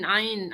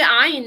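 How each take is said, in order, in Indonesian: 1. Kata ini diucapkan dengan resonansi sengau. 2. Kata ini diucapkan tanpa resonansi sengau. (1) "Kalau dekat hidung ni" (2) "Ain tu nak sebut macam ni je"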